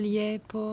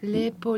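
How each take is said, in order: First: The word is said with an ie vowel. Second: The word is said with a plain e vowel. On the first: This is not the Belgrade form. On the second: This is the Belgrade form.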